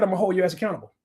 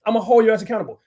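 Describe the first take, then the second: First: Said in the usual way. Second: Louder repeat. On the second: Real, not acted. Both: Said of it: "repeated louder".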